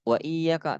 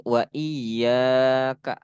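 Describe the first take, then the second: First: "iyyaka" with a short, quick YA; no stretch on the ya of "iyyaka"; ya dibaca pendek. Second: "iyyaka" with YA held long; dibaca panjang. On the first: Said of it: "ya-nya dibaca pendek". ("iyyaka" dengan ya pendek) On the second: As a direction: slowly stretch the ya in "iyyaka". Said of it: "Harus dibaca panjang". ("iyyaka" dengan ya dibaca panjang) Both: Shown as a demonstration.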